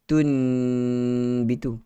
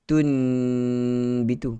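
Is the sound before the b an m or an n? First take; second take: n; n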